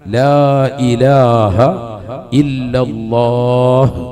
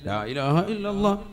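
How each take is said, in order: First: It is said slowly, with the end drawn out. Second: It is said quickly and carelessly, rushed together.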